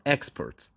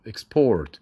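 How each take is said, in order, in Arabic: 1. المقطع الأول هو المنبور، وليس الثاني. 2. المقطع الثاني مطوّل ومنبور. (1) "لكن لو اتكلمنا عن الصادرات" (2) "لو هي verb تبقى export. export بنطول الاو"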